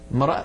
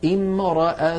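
First: The word joins the word before, with no opening 'i'. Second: The word begins with a short 'i' vowel. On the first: The word continues from the word before it. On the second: Reading starts fresh from this word.

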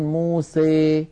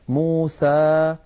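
First: The final vowel leans strongly toward ee. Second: The final vowel is a plain open a. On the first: "يخلط صوت الألف بصوت الياء أكثر من هذا" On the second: "فتحا وسطا"

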